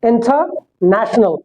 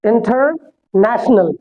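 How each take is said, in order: First: It is said with a British accent, r dropped. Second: It is said with an American accent, r pronounced. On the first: "British के हिसाब से" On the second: "American के हिसाब से"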